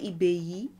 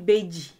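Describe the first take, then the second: First: The middle consonant is a y sound. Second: The middle consonant is a j sound. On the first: This is the Lukumi form. "they would say Ibeyi" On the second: This is the Yoruba form. "So we would say Ibeji"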